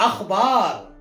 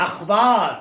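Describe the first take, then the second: The two takes are said the same way.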